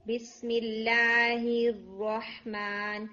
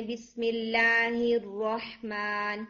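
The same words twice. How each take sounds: First: Very slow الرحمن, the ha with no air; weak ha. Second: Slow الرحمن with the ha barely breathed; faulty weak ha, drawn out. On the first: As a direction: drag out الرحمن with a faint ha. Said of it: "Now the ha is very, very weak". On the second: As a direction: say الرحمن with almost no air on the ha. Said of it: "یہ ہا میں ایئر نہیں آ رہی ہوتی". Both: Shown as a demonstration.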